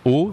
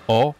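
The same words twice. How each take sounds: First: O as a tight closed 'oh'; sharper closed O. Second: O as an open 'aw'; graver open O. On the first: Teacher explaining the difference to learners, closed O. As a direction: say O with rounded, narrow lips. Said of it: "c'est plus aigu". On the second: Teacher explaining the difference to learners, open O. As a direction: say O lax and open. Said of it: "c'est plus grave". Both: Shown as a demonstration.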